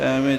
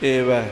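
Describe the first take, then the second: First: The word begins with an open 'ai' vowel. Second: The word begins with a closer 'e' vowel. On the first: The speaker calls it wrong. "ਇੱਦਾਂ ਨਹੀਂ ਹੈ" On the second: The speaker calls it right. "ਸ਼ੁੱਧ ਪਾਠ ਕੀਤਾ ਹੈ"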